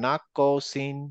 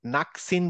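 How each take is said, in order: First: "নাকসিন" as nak-qo-sin, ক rebounding; natural qalqalah bounce. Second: "নাকসিন" with ক joined straight to স; without qalqalah. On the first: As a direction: let the ক in "নাকসিন" bounce before স. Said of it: "এরকম একটা automatically হয়ে যাবে". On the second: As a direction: say "নাকসিন" with no echo after ক. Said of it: "আমি যদি এখানে". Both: Shown as a demonstration.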